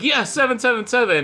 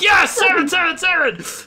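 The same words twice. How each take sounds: First: It is said calmly, with low energy. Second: It is said excitedly, with high energy. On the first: The reaction is understated. "way more down to earth" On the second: The reaction is enthusiastic. "Jose was excited there"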